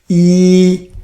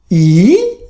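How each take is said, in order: First: It is said with the first tone. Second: It is said with the third tone. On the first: "First song, you practice yi" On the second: "Third tone"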